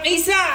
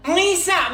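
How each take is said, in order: First: It begins with a plain vowel sound. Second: It begins with a throaty ain sound. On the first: The speaker calls it wrong. "Bukan pakai huruf alif" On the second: The speaker calls it right. "huruf ain"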